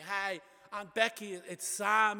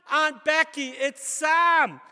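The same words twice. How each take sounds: First: Said in the usual way. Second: High, very loud holler; shouting to be heard. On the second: Acted. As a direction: shout it to a deaf old aunt.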